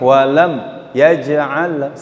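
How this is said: There is a pause after the first word. The speaker calls it wrong. "Kita main saktah gini"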